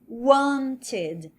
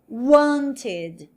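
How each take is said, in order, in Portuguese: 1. A tônica está na primeira sílaba. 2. A tônica está na primeira sílaba.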